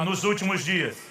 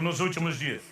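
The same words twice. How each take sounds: First: It is said with much more energy. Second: It is said with ordinary, low energy.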